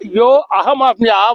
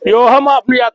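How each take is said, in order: First: The words are kept separate with a break. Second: The words are run together without a break. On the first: The speaker calls it wrong. "విడదీయొద్దు" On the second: The speaker calls it right. "విడదీయకుండా చదవాలి"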